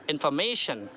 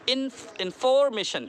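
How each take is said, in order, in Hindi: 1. Stress तीसरे अक्षर पर है। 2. स्ट्रेस दूसरे अक्षर पर है। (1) "मैं को खींचेंगे" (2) "फॉर पे करेंगे तो"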